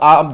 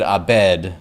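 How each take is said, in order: First: The B and D come together without a vowel. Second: A vowel is added between the B and D. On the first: "is the name of the mother" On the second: "I said Abed because I was like, well, they're just there can't be a B and a D stuck together"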